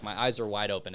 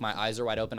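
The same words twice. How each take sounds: First: Said in the usual way. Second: "are" pressed a bit harder in "my eyes are wide open"; stress on are. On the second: Shown as a demonstration. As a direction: lean on "are" to insist they were open. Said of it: "But I, like".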